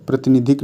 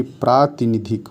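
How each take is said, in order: First: प्रतिनिधिक with a short pra at the start; प्रतिनिधिक said short, pra not lengthened; wrong form shown. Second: प्रातिनिधिक with a long praa at the start; correct form shown. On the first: Teacher showing students the wrong form प्रतिनिधिक, short pra. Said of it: "प्रतिनिधिक नहीं". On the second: Teacher giving students the correct प्रातिनिधिक, long praa. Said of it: "प्रातिनिधिक होता है". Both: Shown as a demonstration.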